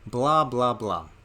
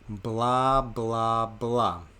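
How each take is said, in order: First: It is said at a normal speed. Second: It is said a little slowly. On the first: "say it with me" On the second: "A little bit slower"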